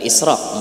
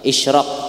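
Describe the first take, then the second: First: The consonant after the first vowel is s. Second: The consonant after the first vowel is sh. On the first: The word would suggest stealing. The speaker calls it wrong. "Mun israq tuh sako layau taka maling maknanya" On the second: The word refers to sunrise. The speaker calls it right. "Pakai shin lah, pakai shin ya lah, isyraq bukan israq"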